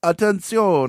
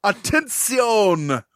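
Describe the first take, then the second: First: Numbers station monotone. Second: Slow, drawn-out, higher broadcast call; numbers station monotone. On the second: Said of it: "Spanish word for attention". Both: Retold or imitated.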